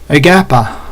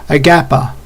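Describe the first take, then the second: Both takes have the same delivery.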